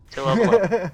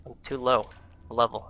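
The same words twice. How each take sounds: First: High, loud mock frustration; exaggerated exclamation. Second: Said in the usual way. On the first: Shown as a demonstration. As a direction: belt it out higher and louder. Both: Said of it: "I mean, gosh darn it".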